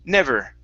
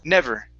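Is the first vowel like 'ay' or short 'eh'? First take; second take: short eh; short eh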